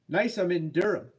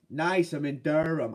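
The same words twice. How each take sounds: First: Said in the usual way. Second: Slow, attempted New Hampshire accent; unsure stab at a New Hampshire accent. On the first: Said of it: "how you'd say that". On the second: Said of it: "New Hampshire accent there".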